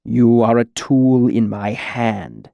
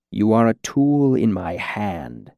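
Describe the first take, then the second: First: Slow, cool, firm command; cool repetition. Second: Slow, gentle menace; gentle interruption. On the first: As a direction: repeat it slowly and coldly, more firmly. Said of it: "the cool voice repeated". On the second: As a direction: correct him gently, drawing the words out slowly. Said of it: "interrupted gently". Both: A narrator's reading.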